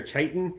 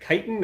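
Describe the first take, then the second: First: "chitin" with a CH start, CHY-tin; "chitin" opening like "child"; CH pronunciation. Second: "chitin" with a hard K start, KY-tin; "chitin" opening on a K sound; hard K pronunciation. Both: Shown as a demonstration. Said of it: "is it chitin or chitin?".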